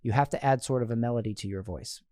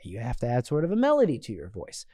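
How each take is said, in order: First: The pitch stays flat without melody. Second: The pitch moves up and down with melody.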